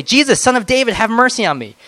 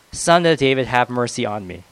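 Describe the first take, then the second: First: High, loud plea for mercy; a beggar calling to Jesus over the crowd, high and loud; crying out. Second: Said in the usual way. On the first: A narrator's reading. Blind beggar crying out to Jesus, pleading loudly. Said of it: "he began to cry out and say". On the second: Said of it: "he cried out all the more".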